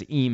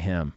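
First: "eem" with the h dropped, a long ee sound; dad's "eem". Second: Said in the usual way. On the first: Retold or imitated. Teasing Chris about how his dad says him, "eem" with no h. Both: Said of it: "his dad says "eem" instead of "him".

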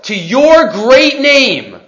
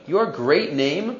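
First: Slow, weighty "To your great name", each word leaned on; slow emphasis. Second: "Your great name?" softer and slow, rising at the end; quiet puzzled question. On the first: Teacher stressing the phrase for his class, slow and weighty. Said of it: "What's the emphasis of L'shimcha hagadol?". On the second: Teacher wondering aloud at the phrase, soft rising question. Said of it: "It's not such a common phrase". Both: Shown as a demonstration.

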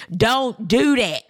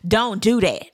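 First: DON'T DO THAT drawn out slowly, word by word; slow retold warning. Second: Retold warning, DON'T DO THAT at an even pace. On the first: He repeats his warning to Robin, slow and emphatic. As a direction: stretch DON'T DO THAT into a pointed warning. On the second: He warns Robin not to do it, retold warning. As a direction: say DON'T DO THAT as a plain first warning.

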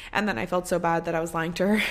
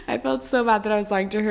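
First: Said in the usual way. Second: Louder, faster, giggling through the words; embarrassed giggly rush; laughing it out. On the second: Real, not acted. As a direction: laugh at your own guilt.

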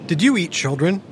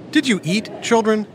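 First: Put-on asking a giant if he ate children; no pause. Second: Put-on comma pause before children; asking the kids if they ate; pause after eat. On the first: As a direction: run together, stress on you. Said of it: "asking a giant if they ate any children". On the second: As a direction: question with a break before children. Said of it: "the words ... were exactly the same". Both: Shown as a demonstration.

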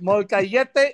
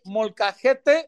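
First: "Molcajete" with a y sound for the j; mispronunciation imitated. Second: "molcajete" with a breathy Spanish h for the j; correct Spanish pronunciation. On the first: Friend echoing a botched food order, "Molcajete" said mol-ka-YET-tay. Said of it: "you're not saying it right". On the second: Shown as a demonstration. Correcting a friend's Spanish, "molcajete" said mol-ka-HET-tay. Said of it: "you gotta literally say".

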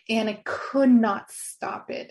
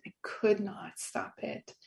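First: "could not stop it" stated slowly and firmly; emphatic. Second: "I could not stop it" breathed out slowly, nearly voiceless; hushed echo. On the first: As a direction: insist on "could not", slow and firm. Recalling uncontrollable sobbing. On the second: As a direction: let "I could not stop it" fall away to a soft hush. Echoing herself in a hush. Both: Real, not acted.

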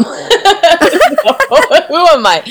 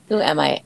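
First: Laughing through the words; giggly, amused question. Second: Said in the usual way. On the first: Real, not acted. Laughs at her own answer.

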